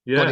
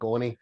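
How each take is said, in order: First: It is said in a standard accent. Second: It is said in a Scottish accent.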